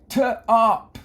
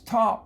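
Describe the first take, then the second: First: The first sound is split off from the rest. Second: The first sound blends smoothly into the rest. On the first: The speaker calls it wrong. "you don't say t op" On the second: The speaker calls it right. "It's top"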